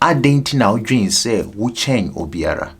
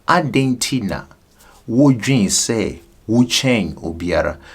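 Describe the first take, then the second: First: It is said at normal speed. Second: It is said slowly.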